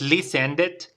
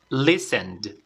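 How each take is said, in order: First: The ending is not a plain D sound. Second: The ending sounds like a plain D. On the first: The speaker calls it wrong. "no es listened" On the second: The speaker calls it right. "sino es listened"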